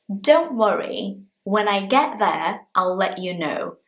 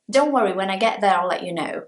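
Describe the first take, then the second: First: It is said at a normal speed. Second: It is said super fast.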